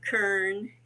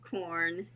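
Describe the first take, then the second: First: The vowel is an 'er' sound. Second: The vowel is an 'or' sound. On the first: Someone with an accent said it this way. "we'd make fun of her saying kern" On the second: This is the usual way to say it. "she'd say kern instead of corn"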